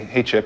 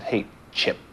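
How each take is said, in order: First: It is said as a plain, friendly greeting. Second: It is said in a sarcastic, insulting tone.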